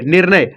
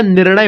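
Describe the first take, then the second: First: निर्णय said with a plain dental n, "nirnay"; निर्णय with an ordinary n in the middle; निर्णय without the retroflex ण; wrong reading. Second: निर्णय said with a retroflex ण, "nirṇay"; निर्णय with a retroflex ṇ, the right way; correct reading. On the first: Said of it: "निर्णय नहीं होता". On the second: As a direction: curl the tongue back for the ण in निर्णय. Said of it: "निर्णय होता है ना". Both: Shown as a demonstration.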